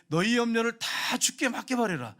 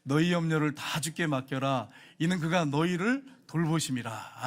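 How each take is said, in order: First: Higher, slow preaching restatement; emphatic paraphrase. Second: Slow, measured unison reading; congregational scripture reading. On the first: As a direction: drive the verse home. (높고 느리게 힘주어 풀어 말하기) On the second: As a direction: read the verse slowly together. (느리게 함께 읽는 성경 봉독) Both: Real, not acted. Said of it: "같이 읽겠습니다".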